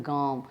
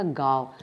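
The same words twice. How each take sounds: First: गाँव with a nasal ending, like gaam; nasalised vowel. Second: गाँव said as plain gaav, without nasal; nasal left out. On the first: Teacher showing students the proper गाँव, fully nasalised. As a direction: let गाँव ring through nose and mouth. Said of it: "ये शुद्ध उच्चारण होता है". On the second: Teacher showing the faulty गाँव, nasal removed. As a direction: drop the nasalisation from गाँव, ending on v. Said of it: "ये अशुद्ध उच्चारण है". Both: Shown as a demonstration.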